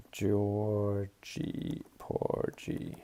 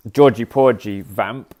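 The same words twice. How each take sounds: First: Georgie Porgy dragged out slowly and quietly, mumbled while typing; typing aloud. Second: Said in the usual way. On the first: Real, not acted. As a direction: spell out Georgie Porgy under your breath, very slowly, letter by letter. Slowly typing the preset name.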